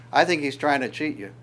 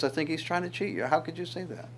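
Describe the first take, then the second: First: Said in the usual way. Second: Quieter, quicker sly tempting voice; serpent's whisper. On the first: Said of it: "the serpent in the garden would say". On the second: Acted. Serpent tempting the woman in the garden, quiet and quick. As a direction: hush it like a tempting snake. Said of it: "then the serpent says".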